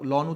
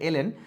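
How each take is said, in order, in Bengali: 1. এটি একটি দল হিসেবে উচ্চারিত হয়, লন। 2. এটি দুটি অক্ষর হিসেবে উচ্চারিত হয়, el en। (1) "আমরা লন উচ্চারণ করি" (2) "আসলে সঠিক উচ্চারণ হচ্ছে এলএন"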